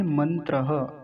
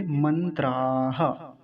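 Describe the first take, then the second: First: "मंत्रः" as man-tra-ha, short a; careful singular "मंत्रः"; singular short ending. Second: "मंत्राः" as man-traaa-ha; slow plural "मंत्राः" with held aa; plural long aa. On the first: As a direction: keep the tra of "मंत्रः" short, then breathe ha. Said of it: "एक मंत्र हो तो". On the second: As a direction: stretch the traa slowly before the ha. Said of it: "आ की मात्रा लगाकर बोलते हैं". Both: Shown as a demonstration.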